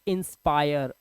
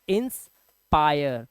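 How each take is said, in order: First: Said in the usual way. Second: inspire split slowly as "ins ... paayer"; slow breakdown. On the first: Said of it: "ये word है एक inspire". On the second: Shown as a demonstration. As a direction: pause after "ins" in inspire, then draw out the rest. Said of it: "तो आया का आवाज आ रहा है".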